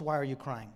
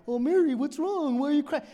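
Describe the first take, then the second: First: Said in the usual way. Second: Much higher and louder, playing dumb; a dense Jesus, sing-song and clueless; mock oblivious Jesus. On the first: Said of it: "is Jesus oblivious?". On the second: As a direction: ask like you have no clue why she's upset. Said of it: "Is he dense to why".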